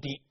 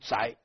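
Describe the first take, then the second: First: The surname is pronounced di. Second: The surname is pronounced zhai. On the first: The speaker calls it wrong. "不读狄" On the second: The speaker calls it right. "这一支的正确读音应该读宅"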